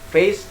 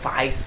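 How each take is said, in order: First: The vowel sounds like the standard ay. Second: The vowel sounds like the eye diphthong.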